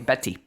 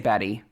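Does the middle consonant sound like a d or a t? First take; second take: t; d. First: The middle consonant sounds like a crisp t. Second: The middle consonant sounds like a soft d. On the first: "but they say Betty" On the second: "almost as if it has two D's in the middle"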